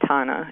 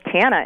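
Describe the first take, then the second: First: The name is said with a soft, refined vowel. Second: The name is said with a flat Midwestern vowel. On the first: "it sounds much more refined and lovely" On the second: "that little Fargo Tana"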